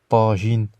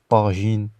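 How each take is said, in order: No difference in how they are said.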